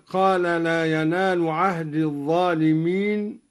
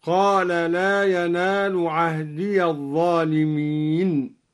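First: Sung, recited with عهد said without a final ya sound; plain chanted reading, عهد closed; sung, standard recitation. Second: عهدي sounded as ahdiya, the ya voiced open into الظالمين; slow chant, open the ya of عهدي. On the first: Sheikh reciting before the variant, measured chant. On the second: Sheikh showing al-Duri's reading, open ya slowly chanted. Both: Shown as a demonstration. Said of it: "وقرأ الدوري بفتح الياء وصلا".

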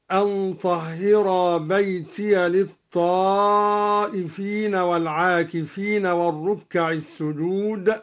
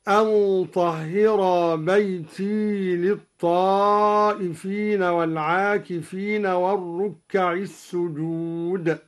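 First: Sung, بيتي with an open ya, beitiya; sung, standard recitation. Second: بيتي ending on a still ya, beiti; slow chant, keep the ya of بيتي silent. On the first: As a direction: chant it with the ya of بيتي opened. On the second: Sheikh showing al-Duri's silent ya. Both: Shown as a demonstration. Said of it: "قرأ الدوري بإسكان الياء من بيتي".

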